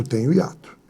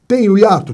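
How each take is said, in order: First: "Tenho hiato." said lower and softer as the answer; teacher confirming own answer. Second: "Tenho hiato?" asked a little higher, with a falling question tune; teacher quizzing students; asking question. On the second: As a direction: ask "Tenho hiato?" to the class. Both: Shown as a demonstration.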